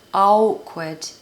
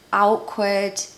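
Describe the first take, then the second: Both takes have the same delivery.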